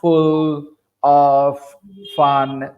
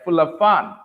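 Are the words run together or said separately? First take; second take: separately; run together. First: Each word is said separately, with breaks. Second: The words are linked together like one word. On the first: The speaker is a beginner. The speaker calls it wrong. "we will separate all those words" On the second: The speaker has improved. The speaker calls it right. "like one word"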